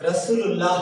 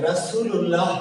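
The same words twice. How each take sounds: Both takes have the same delivery.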